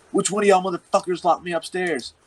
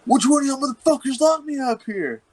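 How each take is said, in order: First: Raised, pitched-up angry demand; hammed-up retelling of the friend demanding who locked him in. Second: Much higher, strained mock fury; hammed-up imitation of an outraged friend; mock furious demand. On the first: Friend storms downstairs demanding answers, higher and angrier. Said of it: "and he's like". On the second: Locked-in friend confronting the guys, mock furious and much higher. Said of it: "And he was like".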